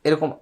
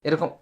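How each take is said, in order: The two takes are said the same way.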